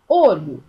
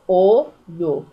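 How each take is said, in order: First: Said in the usual way. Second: "olho" broken into O, LHO, each loud and slow; split into syllables. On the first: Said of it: "quando a gente separa a palavrinha". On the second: Shown as a demonstration. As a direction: sound out "olho" in two separate beats. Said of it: "separa a palavrinha em duas sílabas".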